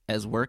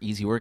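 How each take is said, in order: First: The name starts with a short 'ez' sound. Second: The name starts with the full word 'easy'. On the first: "however you want to pronounce it" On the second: "however you want to pronounce it"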